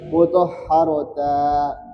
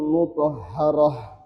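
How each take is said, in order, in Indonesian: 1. Kata itu berakhir dengan t dan vokal. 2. Kata itu berakhir dengan bunyi h. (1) "bukan mutahharata" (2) "selalu diganti menjadi hak sukun"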